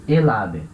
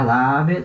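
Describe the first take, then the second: First: "el ave" run together as e-la-be; euphonic article. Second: "La ave" slowly, the a of La running into the a of ave; clashing double vowel. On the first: Teacher giving the correct form, euphonic linked sound. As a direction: link el into ave, the l starting the second syllable. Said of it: "O certo é". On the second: Teacher marking the form as wrong, clashing double vowel. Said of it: "tá errado". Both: Shown as a demonstration.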